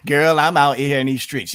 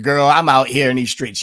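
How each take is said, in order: First: Mocking replay of the fake street-slang line; imitating Kamala Harris. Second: Louder mock street-slang voice, sassy 'girl'; mock her put-on street talk with a sneer; imitating Kamala Harris. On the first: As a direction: parrot her 'girl' line back with scorn. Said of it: "You're so phony". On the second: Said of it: "this fake jive talk that you hear Kamala Harris talking".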